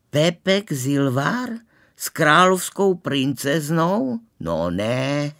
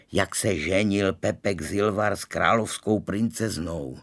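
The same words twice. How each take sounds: First: Slow, high, wide-eyed disbelief; astonished. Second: Said in the usual way. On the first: A narrator's reading. Girl hearing of a classmate's royal wedding, astonished. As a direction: echo it slowly in amazed, rising questions. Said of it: "Eva otevřela svoje modrá očadla na celé kolo".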